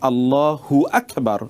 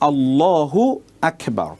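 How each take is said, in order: First: The syllable 'hu' is joined onto Akbar. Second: The syllable 'hu' ends the first word, Allahu. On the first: The meaning becomes distorted. The speaker calls it wrong. "হু আকবার যদি আপনি বলেন" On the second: Two separate words are said. The speaker calls it right. "মূল উচ্চারণটা হবে আল্লাহু আকবার"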